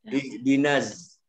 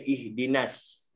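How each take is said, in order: First: The word ends with a z sound. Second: The word ends with an s sound. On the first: "Naz dia baca zai pun ada tau" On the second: "Dia baca sin"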